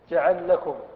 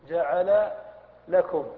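First: The two L sounds merge into one doubled L. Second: The two L sounds are pronounced separately. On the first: "فإذا أدغمت وجب تحقيق شرط الإدغام بإسكان المثل الأول" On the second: "يجوز الفك وهو الأكثر في اللغة"

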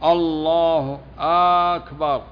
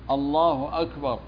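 First: The opening vowel is drawn out. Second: No vowel is drawn out. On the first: The speaker calls it wrong. "ومثل ما يغير المعنى مثل مد الهمزة" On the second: The speaker calls it right. "اللفظ الصحيح الله أكبر بالهمزة"

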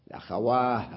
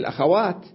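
First: The word ends in a silent h sound. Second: The word ends in a t sound. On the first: "وقفوا عليها بالهاء" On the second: "مع أنها هي الأخوات"

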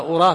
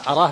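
First: The first vowel is a rounded 'u' sound. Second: The first vowel is an open 'a' sound. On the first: It means I think so. "أما أراه بالضم يعني أظنه" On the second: It means I know it for certain. "أراه بالفتح يعني أعلمه"

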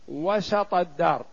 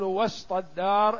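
First: The s sound is followed by an a vowel. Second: The s sound has no vowel after it. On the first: The speaker calls it right. "تقول مثلا" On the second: The speaker calls it wrong. "ولا تقول ... إلا على ضعف"

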